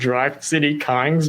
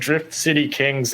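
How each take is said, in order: First: The first word sounds like 'drive'. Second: The first word sounds like 'drift'. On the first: "in my head, it's always been Drive City Kings because of the Y" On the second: "that's the right way to pronounce those words"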